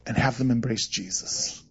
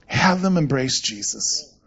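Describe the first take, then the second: First: "have them embrace Jesus" dropped soft and low; quiet pointer. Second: "Have them embrace Jesus" slowed right down, "them" stressed and rising; slow emphatic repeat. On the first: Pastor advising fellow pastors, softly and low. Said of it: "Let me give you a pointer about pastoring". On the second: Pastor driving home the job to other pastors, slow and emphatic. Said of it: "That's your job". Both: Shown as a demonstration.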